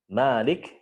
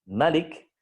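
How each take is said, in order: First: The vowel after the m is lengthened. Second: The vowel after the m is kept short. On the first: "itu berarti dia dibaca mad, maksudnya menetapkan alif" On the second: "berarti dia dibaca qasr, maksudnya dia menghapus alif"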